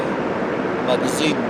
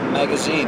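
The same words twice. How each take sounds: First: It is said with a French accent. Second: It is said with an English accent.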